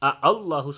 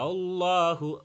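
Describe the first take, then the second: First: The second hamza is pronounced hard and full. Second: The second hamza is pronounced soft and light. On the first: The speaker calls it wrong. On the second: The speaker calls it right.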